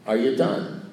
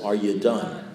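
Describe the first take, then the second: First: Said in the usual way. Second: Are you done said lower, quieter and more pointed; insistent repeat. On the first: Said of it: "he says". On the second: Retold or imitated. Sponsor quietly insists the ranting speaker really is done. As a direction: press Are you done a second time, low and meaning it. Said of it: "No, no, [name]".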